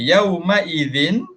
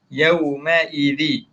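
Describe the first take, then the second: First: The phrase ends with an n sound. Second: The phrase ends on a vowel, no n. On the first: "ada tanwin kan" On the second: "Kita hilangkan tanwin"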